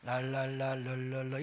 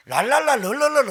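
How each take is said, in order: First: Unhurried, softer la-la babble; slow tongues babble. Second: Rattled-off la-la babble, fast and loud; fast tongues babble. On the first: 천천히 했어야 할 방언을 느긋하게 보여주는 소리. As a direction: draw out the babble gently. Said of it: "천천히 할 걸". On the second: 빨리 방언하던 옛 습관을 흉내 내며 빠르게 떠드는 소리. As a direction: mimic rushed speaking in tongues, high and loud. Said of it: "얼마나 빨리 하는지 몰라요". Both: Shown as a demonstration.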